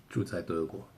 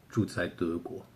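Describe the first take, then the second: The two takes are said the same way.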